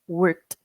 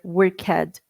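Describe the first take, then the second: First: The ending is a short t joined tightly on. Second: The ending is said as a separate extra syllable. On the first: The speaker calls it right. "Bem juntinho" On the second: The speaker calls it wrong. "Não worked or worked"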